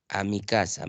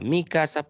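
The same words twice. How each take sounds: First: Said in the usual way. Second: Mi stressed and raised above casa. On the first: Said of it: "Mi casa, posesivo". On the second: Shown as a demonstration. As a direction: lift the word mi, then drop casa. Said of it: "posesivo, no lleva tilde". (acento en "mi", más agudo que "casa")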